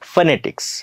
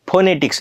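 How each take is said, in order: First: The first vowel sounds like 'uh'. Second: The first vowel sounds like 'o'. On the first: The speaker calls it right. "आता आम्ही अ सारखा करणार" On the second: The speaker calls it wrong. "फोनेटिक्स नाही"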